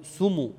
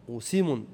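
First: سمو said as sumu, with u after the s. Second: وسم said as wa-simun, with i after the s. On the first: Teacher showing a dialect form, u after s. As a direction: round the first vowel of سمو to u. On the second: Teacher showing the next dialect form, i after s. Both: Shown as a demonstration. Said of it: "بعض العرب تنطقه".

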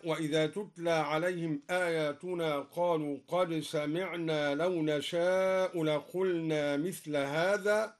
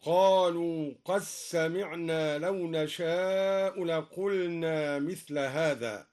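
First: Said in the usual way. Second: قد سمعنا said qas-samiʿnā, the د merged into the س; merged dal. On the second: Shown as a demonstration. Reciter shows the Durī merging in قد سمعنا as qassamiʿnā. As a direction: run قد سمعنا together as qassamiʿnā, slowly. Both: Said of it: "أدغم الدوري أيضًا الدال في السين".

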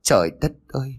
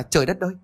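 First: A mildly tearful wail; mother's mild tearful lament; grieving cry. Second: A much higher wail of dismay; father's higher despairing exclamation; anguished cry. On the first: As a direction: lament the lost daughter, voice pushed up. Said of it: "ngồi xuống đất mà khóc". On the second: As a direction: cry out to the heavens in shock. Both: Acted.

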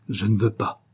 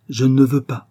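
First: Said in the usual way. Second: Louder, higher, insistent repeat; forceful refusal. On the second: A narrator's reading. Father forbidding his daughter's love, forceful. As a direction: put your foot down.

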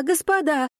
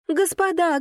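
First: The word господа called again, high and falling; excited shout. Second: High, louder call to the masters; excited shout. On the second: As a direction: cry out high with joy. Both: A narrator's reading. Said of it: "она ахнула и закричала".

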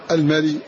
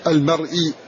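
First: "المري" as al-mari, no glottal stop; hamza dropped. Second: "المرئي" with a glottal stop before the long i; hamza pronounced. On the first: Teacher showing students the eased word, hamza dropped in "المري". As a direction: run r straight into i in "المري". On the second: Teacher showing students the full word, hamza pronounced in "المرئي". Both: Shown as a demonstration. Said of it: "وهكذا".

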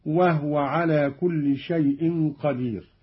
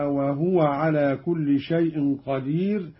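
First: "وهو" as "wah-wa", no vowel on h; silent-vowel ha. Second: Said in the usual way. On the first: Shown as a demonstration. Teacher demonstrating Qalun, "وهو" said wah-wa. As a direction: close "وهو" on h before wa. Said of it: "بإسكان الهاء". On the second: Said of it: "أيضًا بإسكان الهاء".

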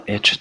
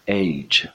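First: اچ with a short e, "etch"; common mispronunciation. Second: ایچ with a long gliding vowel, "aitch"; correct letter name. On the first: Teacher quoting friends' mistake, اچ as "etch". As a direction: say اچ as a clipped "etch", no diphthong. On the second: Teacher correcting learners, ایچ as "aitch". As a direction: say ایچ as English "eych". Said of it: "تلفظ صحیحش هست". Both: Shown as a demonstration.

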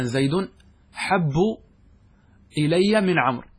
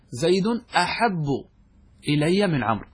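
First: "حب" starting straight on the ḥ; hamza dropped. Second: "أحب" opening with a glottal "a" before the ḥ; hamza kept. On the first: Teacher giving another example of the rule, hamza dropped. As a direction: say "حب" as "ḥabbu", no opening "a". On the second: Teacher explaining the original form, hamza kept. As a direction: say "أحب" as "aḥabbu", hamza sounded. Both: Shown as a demonstration. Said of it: "حذفت الهمزة".

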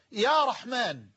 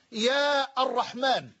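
First: يا رحمن as smooth "ya Rahmaan"; vocative without article. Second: يا الرحمن as "yaa ar-Rahmaan", article sounded; wrong vocative with article. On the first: Teacher shows the correct form, يا رحمن without article. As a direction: join يا straight onto رحمن, no "ar". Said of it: "بل تقول". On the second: Teacher shows an incorrect form, يا الرحمن with article sounded. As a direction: separate long يا from الرحمن. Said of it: "لا تستطيع أن تقول". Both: Shown as a demonstration.

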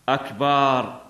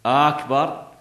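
First: أكبر with a long vowel after the b, "akbaaar"; lengthened ba. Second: أكبر with a long first vowel, "Aaakbar"; lengthened hamza. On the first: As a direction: keep the opening short and stretch the last syllable of أكبر. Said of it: "الباء". (مدّ باء «أكبر») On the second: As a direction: stretch the opening A of أكبر, keep the ending short. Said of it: "أو همزة أكبر". (مدّ همزة «أكبر») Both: Shown as a demonstration.

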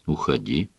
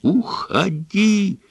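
First: Low, soft, withdrawn Уходи; quiet repeat. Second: High, slow Уходи, screamed out. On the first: Son repeats to father, quietly. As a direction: drop Уходи softly and low. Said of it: "повторил Брайан". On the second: Son screams at his father to go. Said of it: "завопил Брайан". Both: A narrator's reading.

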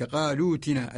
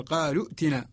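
First: قالوا ائتنا as qaaloo-tina with long oo; joined reading without hamza. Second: قالوا ائتنا as qaalu'tina with glottal stop; original form with hamza. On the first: Teacher giving the recited form, قالوا ائتنا with long oo. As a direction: glide through loo into tina, no glottal stop. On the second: Teacher showing the original form, قالوا ائتنا with hamza sounded. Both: Shown as a demonstration. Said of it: "الأصل".

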